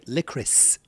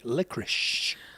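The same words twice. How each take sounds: First: The word ends with an s sound. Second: The word ends with an sh sound. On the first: This is how the other person's group says it. The speaker calls it right. "you say licorice" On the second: This is how the speaker's own group says it. The speaker calls it wrong. "We say licorice. But there's not an S H at the end of it"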